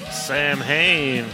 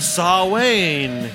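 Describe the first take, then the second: First: The m and h are sounded: 'Sam-hain'. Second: No m or h is heard: 'Sah-wayne'. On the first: The speaker calls it wrong. "This is Sam Hain" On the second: The speaker calls it right. "if you'd like to pronounce it correctly"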